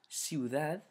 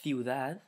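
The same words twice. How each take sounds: First: The first sound is an s sound. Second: The first sound is a th sound. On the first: This is the pronunciation used outside Spain. "Without, and then I'll pronounce it with ceseo" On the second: This is the pronunciation used in Spain. "with thetheo"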